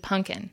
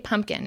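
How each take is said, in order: First: The middle of the word has an N sound. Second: The middle of the word has an M sound. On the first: The speaker calls it right. "It's got to be pumpkin. ... with an N" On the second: The speaker calls it wrong. "you can't say pumpkin"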